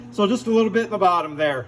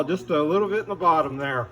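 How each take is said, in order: First: Said in the usual way. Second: Muffled by a paint mask; talking through a respirator mask. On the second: Real, not acted. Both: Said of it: "Sorry, I still got my mask on".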